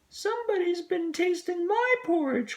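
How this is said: It is said in a tiny little voice.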